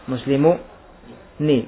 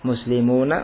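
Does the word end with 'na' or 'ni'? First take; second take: ni; na. First: The final nun is said with an i vowel. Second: The final nun is said with an a vowel. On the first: This is a rare form. "sedikit sekali yang mengucapkan nunnya dengan kasrah" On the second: This is the usual form. "faftah fathahlah, harakatilah dengan apa? Fathah"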